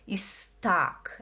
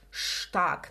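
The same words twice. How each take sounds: First: It begins with a plain s sound. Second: It begins with an sh sound. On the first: The speaker calls it wrong. "não é stark" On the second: The speaker calls it right. "o ST no alemão, ele faz sim som de sh"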